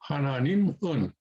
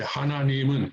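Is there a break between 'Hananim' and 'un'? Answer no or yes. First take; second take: yes; no. First: There is a break before the final syllable. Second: The final syllable is joined on without a break. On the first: This is how a beginner can say it. "you can pronounce it like that" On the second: This is how a more advanced speaker says it. "would sort of slide one into the other"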